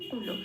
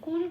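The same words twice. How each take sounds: First: The word ends in a full la sound. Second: The word ends in a bare l sound. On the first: The speaker calls it right. "লকে পূর্ণ ল রূপে উচ্চারিত করতে হবে" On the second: The speaker calls it wrong. "কুল বলতে পারবো না"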